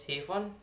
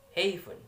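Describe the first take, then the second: First: Said in the usual way. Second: "haven" with first syllable lifted, second dropping; first-syllable stress. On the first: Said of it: "and the syllable stress that is". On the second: Shown as a demonstration. Student showing word stress in "haven", first syllable stressed. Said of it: "in the first two".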